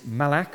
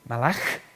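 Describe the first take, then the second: First: The word is said in an anglicized way. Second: The word is said in a Hebrew way. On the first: The speaker calls it wrong. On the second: The speaker calls it right.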